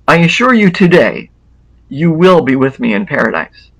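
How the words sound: The pause comes after the word today.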